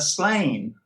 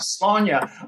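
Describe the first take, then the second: First: The title is said the anglicized English way. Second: The title is said the Irish way, like cheers. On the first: The speaker calls it wrong. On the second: The speaker calls it right.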